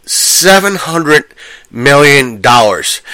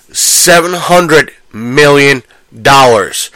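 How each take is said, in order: Both takes have the same delivery.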